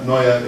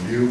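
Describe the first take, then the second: First: It is said as the two-syllable German 'neue'. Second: It is said as the one-syllable English 'new'. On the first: The speaker calls it right. "it's actually a German word" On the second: The speaker calls it wrong. "a lot of people say it's Helvetica New"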